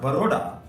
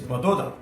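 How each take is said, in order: First: The middle consonant is an R sound. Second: The middle consonant is a D sound. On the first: "it is not Baroda" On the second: "they pronounced R as the. For them, ... it is Badoda"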